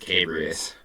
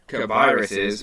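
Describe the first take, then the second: First: The B runs straight into the R. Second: A vowel sound comes between the B and R. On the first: The speaker calls it wrong. "I've been pronouncing it as Cabrius" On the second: The speaker calls it right. "I didn't see the I was uh, before the R"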